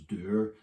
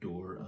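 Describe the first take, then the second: First: It is said with a two-part 'oo-er' vowel. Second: It is said with a plain 'or' vowel.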